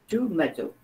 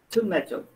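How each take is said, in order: First: It is said with a British accent. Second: It is said with a British accent.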